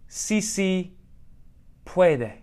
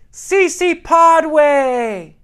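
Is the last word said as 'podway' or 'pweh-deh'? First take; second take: pweh-deh; podway. First: The last word sounds like 'pweh-deh'. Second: The last word sounds like 'podway'. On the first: This is how native speakers say the slogan. The speaker calls it right. "is what they say" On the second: Someone pandering mispronounced the slogan. The speaker calls it wrong. "she yelled"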